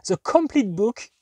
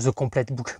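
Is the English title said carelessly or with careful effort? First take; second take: careful effort; carelessly. First: It is said with a deliberate attempt at English sounds. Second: It is said casually, with little English accent. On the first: The speaker calls it right. "c'est pas beaucoup mieux prononcé, mais au moins il y a un effort" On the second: The speaker calls it wrong. "comment j'ai prononcé ça?"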